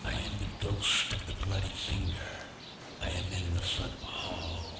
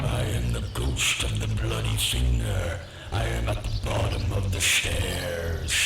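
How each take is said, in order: First: Soft, hollow ghost moaning; ghostly moan. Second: Deep hollow ghost moan, a little closer; ghostly moan. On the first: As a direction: moan it like a ghost far downstairs. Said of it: "someone moaning these words". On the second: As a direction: moan low like a ghost drawing nearer. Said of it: "a bit louder". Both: A narrator's reading.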